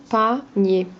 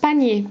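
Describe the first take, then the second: First: "Panier" in two separate beats, pa, then nier; split into syllables. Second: Said in the usual way. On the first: Shown as a demonstration. Teacher dividing a word for a pupil, "Panier" syllable by syllable. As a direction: pause inside "Panier" after pa. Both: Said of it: "On enlève la deuxième syllabe".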